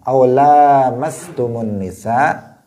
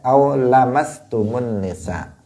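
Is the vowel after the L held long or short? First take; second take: long; short. First: The vowel after the L is held long. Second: The vowel after the L is kept short. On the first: "ada dibaca dengan panjang" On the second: "ada dibaca dengan pendek"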